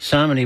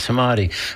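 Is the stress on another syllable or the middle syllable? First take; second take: another syllable; middle syllable. First: The stress is not on the middle syllable. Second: The stress is on the middle syllable. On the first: The speaker calls it wrong. "which I think I keep pr- mispronouncing" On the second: The speaker calls it right. "It's the middle syllable that's the, the emphasized one"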